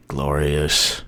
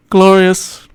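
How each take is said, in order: First: Low, soft "glorious"; hushed relish. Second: High "glorious" at normal volume; raised, exultant "glorious"; high-pitched relish. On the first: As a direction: let "glorious" sink deep and quiet. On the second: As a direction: lift "glorious" up high and hold it. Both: Acted. Same word said low, then high.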